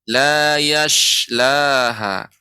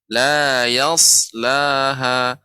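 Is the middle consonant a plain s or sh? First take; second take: sh; plain s. First: The middle consonant is a hushing sh sound. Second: The middle consonant is a plain s sound. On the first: The speaker calls it wrong. "yang keliru la yashlaha" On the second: The speaker calls it right. "itu yang benar la yaslaha"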